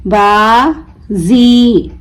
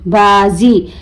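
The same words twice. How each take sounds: First: बाजी very slow, "baa", pause, long "zee"; broken into syllables. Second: Said in the usual way. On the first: Shown as a demonstration. Teacher breaking the word for learners, बाजी stretched as baa... zee. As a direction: draw out बाजी as two separate syllables with a z. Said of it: "तोड़ तोड़ कर पढ़ूंगी". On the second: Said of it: "मिलाकर पढ़ें".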